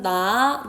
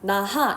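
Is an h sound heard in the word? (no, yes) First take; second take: no; yes. First: No h sound is heard; it is run together. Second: An h sound is heard between the syllables. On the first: The speaker calls it right. "얼른 나" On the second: The speaker calls it wrong. "히읗이 없이 막 나하 이렇게 하지 않고"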